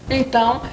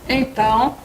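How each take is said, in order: No difference in how they are said.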